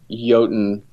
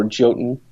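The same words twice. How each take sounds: First: "Jotun" said as YOH-tun; Jotun with a Y sound. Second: "Jotun" said as JOE-tun; Jotun with a J sound. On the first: Offering a game title either way, "Jotun" as YOH-tun. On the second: Offering the other option, "Jotun" as JOE-tun. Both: Shown as a demonstration. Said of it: "depending on how you wanna say it".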